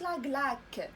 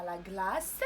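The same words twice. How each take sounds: First: "لا غلاك" ending on a k instead of s; wrong k pronunciation. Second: "لا غلاس" ending on a clear s; correct s pronunciation. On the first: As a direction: show the mistake "لا غلاك" with a final k. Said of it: "وما قلناش لا غلاك". (نطق خاطئ "لا غلاك" بالكاف في الآخر) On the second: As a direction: give the correct "لا غلاس" with a final s, not k. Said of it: "إنما لا غلاس". (نطق صحيح "لا غلاس" بالسين في الآخر) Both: Shown as a demonstration.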